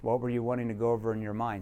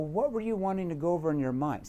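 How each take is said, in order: First: It is said stiffly, with a flat, unacted tone. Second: It is said casually, with a lively, acted tone. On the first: The question sounds like a scripted interrogation. The speaker calls it wrong. "You can't say" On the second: The question sounds like a relaxed afterthought. The speaker calls it right. "you got to act this out"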